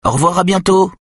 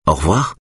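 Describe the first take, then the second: First: Put-on much higher, louder child's "Au revoir, à bientôt" rattled off by rote; a boy reciting the goodbye on autopilot; the boy answering automatically, high and rote; mechanical reply. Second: A kind smiling farewell; mother saying goodbye to the boy with a smile. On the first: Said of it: "répond Nick machinalement". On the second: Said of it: "sourit Simone". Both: A narrator's reading.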